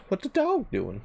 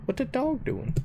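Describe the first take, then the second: First: Silly high voice. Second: Squeaky voice. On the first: Voicing the dog on stream. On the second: Repeat, much higher. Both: Pretend.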